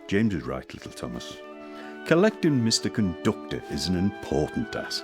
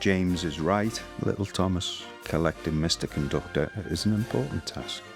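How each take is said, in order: First: It is read in a lively, animated way. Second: It is read in a flat, plain way.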